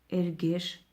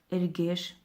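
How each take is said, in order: Both takes have the same delivery.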